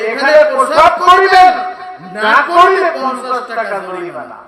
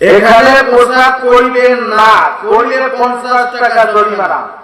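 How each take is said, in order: First: The pause comes before the word 'না'. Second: The pause comes after the word 'না'.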